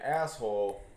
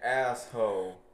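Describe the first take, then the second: First: The word is said in a standard way. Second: The word is said in a Texan way. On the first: "instead of saying asshole" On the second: "they say some things really weird"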